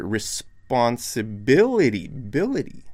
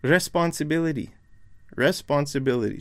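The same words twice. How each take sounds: First: Responsibility, drawn out slowly with the stress on BIL; slow "responsibility", leaning on the BIL syllable. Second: "Responsibility" with the stress moved onto the first syllable, RE; wrongly placed stress. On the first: Teacher shows learners where the stress is, stress on BIL in responsibility. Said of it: "The stress is over here". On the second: Teacher imitates learners' wrong assumption, stress on RE in responsibility. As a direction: hit RE at the start of responsibility. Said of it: "assume that the stress is over here". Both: Shown as a demonstration.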